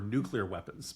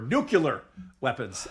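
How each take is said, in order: First: The word has its plain ordinary third syllable. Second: The word has an altered, marked third syllable. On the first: "I had always believed that these were nuclear weapons" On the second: "it's that third syllable that makes them particularly dangerous"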